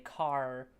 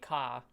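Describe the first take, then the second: First: The final R is clearly pronounced, American style. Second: The final R is dropped, British style.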